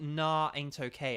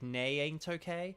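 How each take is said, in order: First: The first syllable is said like 'nah'. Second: The first syllable is said like 'nay'. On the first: The speaker calls it wrong. "It's not" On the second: The speaker calls it right. "It's like"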